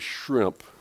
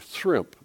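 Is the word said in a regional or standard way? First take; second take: standard; regional. First: The word is said the standard way. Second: The word is said the local southern way. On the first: "people don't say shrimp" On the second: "they say shrimp. They can't say the shrimp"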